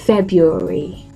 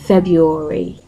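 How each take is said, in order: First: The R after 'Feb' is silent. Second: The same.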